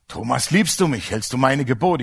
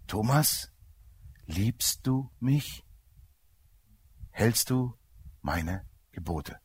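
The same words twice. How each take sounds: First: The voice is stern and pressing. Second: The voice is soft, loving and slow. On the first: The listener feels accused and pressured. "muss man auch noch draufdrücke" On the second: The question is a loving invitation, not a demand. "Die war total sanft und liebevoll. Und er sprach ganz langsam"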